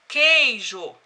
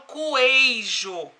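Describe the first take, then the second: First: No 'w' sound is heard after the k. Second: A 'w' sound is heard after the k. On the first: The speaker calls it right. "O Q e o U, eles estão juntos formando um som só" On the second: The speaker calls it wrong. "Eu não falo coeijo"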